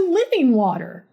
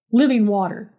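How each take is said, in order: First: Lifted, swooping sales pitch; earnest pitch. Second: Resigned, unimpressed echo; weary agreement. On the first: Todd pitches his magic water to a nurse, earnest pitch. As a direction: sell it with a high, falling swoop. Todd's pitch, later echoed wearily. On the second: Tired nurse gives up arguing with Todd, weary agreement. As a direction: humour him with tired agreement. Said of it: "But I am so, so tired". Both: A narrator's reading.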